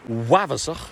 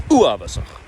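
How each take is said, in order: First: Wavasach with stress pushed onto the second vowel; wrong stress on second vowel. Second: Uavasach with a short, punched first syllable and a final ch; stress on first vowel. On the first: Coach demonstrating the mispronunciation, stress on the second vowel. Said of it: "is the stressing of the second vowel". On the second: Coach giving the correct pronunciation to students. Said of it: "So we're hitting the first one". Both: Shown as a demonstration.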